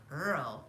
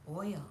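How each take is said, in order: First: "Earl" with an r-coloured vowel for oil; dad's mispronounced oil, sounding like "Earl"; Brooklyn pronunciation of oil. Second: "oil" with a clear oy vowel; carefully corrected "oil", oy then l; standard pronunciation of oil. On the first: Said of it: "it is not pronounced that way". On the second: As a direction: say "oil" with oy, no r sound. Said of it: "It's not Earl, it's oil". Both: Shown as a demonstration.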